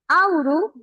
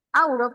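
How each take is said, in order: First: "auru" with a final u sound; slip of the tongue. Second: "auro" ending clearly in o; corrected word. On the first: Teacher misreading the example as "auru". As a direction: say "auru" ending in u, a small mistake. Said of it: "auro, perdón". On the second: Teacher correcting herself, "auro" with a clear o. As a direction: say "auro" with a clean final o. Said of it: "perdón". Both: Shown as a demonstration.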